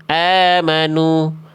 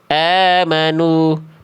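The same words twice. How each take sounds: The two takes are said the same way.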